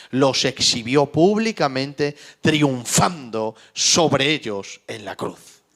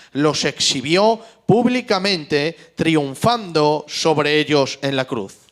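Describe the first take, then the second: Both takes have the same delivery.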